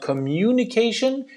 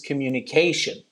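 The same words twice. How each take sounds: First: The syllable mu carries the stress. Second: The syllable mu does not carry the stress. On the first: The speaker calls it wrong. "it's not communication" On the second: The speaker calls it right. "The mu is present, but it doesn't take the stress"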